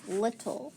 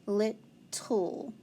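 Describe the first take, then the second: First: Said in the usual way. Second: "Little" split slowly into lit, tull; sounding out syllables. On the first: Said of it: "try to spell the word little". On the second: Shown as a demonstration. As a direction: say "Little" in two separated syllables. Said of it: "So let's sound it out".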